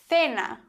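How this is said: The c is lisped like English th.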